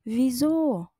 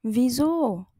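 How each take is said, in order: Both takes have the same delivery.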